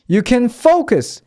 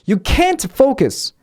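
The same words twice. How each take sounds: First: Unstressed can, strong focus; stress on focus. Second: Can't punched high; stress on can't. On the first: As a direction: pass lightly over can and hit focus. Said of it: "can의 강세가 없고 뒤에 동사가 강세가". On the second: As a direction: hit can't firmly, high in pitch. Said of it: "이 can't에다가 강세를 딱 주면". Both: Shown as a demonstration.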